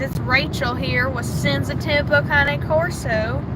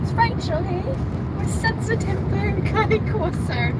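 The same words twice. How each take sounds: First: It is said in a country accent. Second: It is said in a British accent.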